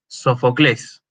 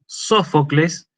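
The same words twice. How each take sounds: First: Sofocles with the accent on the last syllable, CLÉS; end-stressed Sofocles, as the Greeks say it; Greek final stress. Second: Sófocles with the accent on SÓ; Spanish first-syllable stress. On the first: Lecturer showing how Greeks say it, final syllable stressed in Sofocles. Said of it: "como dicen los griegos". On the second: Lecturer contrasting our pronunciation with the Greek, SÓ stressed in Sófocles. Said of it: "la razón por la cual nosotros pronunciamos". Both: Shown as a demonstration.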